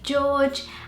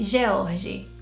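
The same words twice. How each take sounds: First: It is said with a British English pronunciation. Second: It is said with a Portuguese pronunciation. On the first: "in British English you say" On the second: "in Portuguese you would say"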